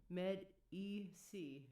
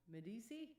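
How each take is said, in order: First: Med E C drawn out slowly in separate syllables. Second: Medici run together as meh-DEE-see, rising higher; own pronunciation. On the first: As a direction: break it up as med, ee, see. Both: Shown as a demonstration. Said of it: "That's how I say it".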